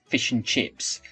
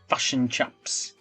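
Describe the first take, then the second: First: The vowels are said in the local accent. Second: The vowels are said in a New Zealand accent. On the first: This is how people here say it. "we would say here" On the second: This is how someone from New Zealand said it. "she was from New Zealand, and I remember her pronouncing it as fashion chaps"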